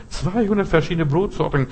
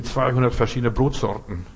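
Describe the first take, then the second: First: "zweihundert" pitched higher in disbelief; incredulous emphasis. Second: Said in the usual way. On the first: Real, not acted. Preacher mocking the bakery ad, incredulous "zweihundert". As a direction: repeat "zweihundert" as if you can't believe it.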